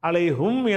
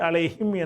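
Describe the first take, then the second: First: The vowel before the final m is u. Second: The vowel before the final m is i. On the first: "அலைஹும் என்பது" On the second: "அலைஹிம் என்று மாறிக்கிறோம்"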